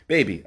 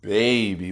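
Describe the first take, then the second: First: Put-on "Baby" said short and quick, no stretch; genuine New Orleans "Baby". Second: Exaggerated, stretched-out fake New Orleans "Baby"; mock New Orleans accent. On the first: Shown as a demonstration. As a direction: say "Baby" plainly, without drawing it out. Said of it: "That's how you say it". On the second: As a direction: mimic an outsider's drawn-out New Orleans "Baby". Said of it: "I don't know where they get this".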